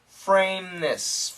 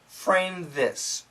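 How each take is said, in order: First: The th merges into the m, said fast. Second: The th is said clearly and separately. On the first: "when we say it fast, it sounds like" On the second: "Of course, we should say"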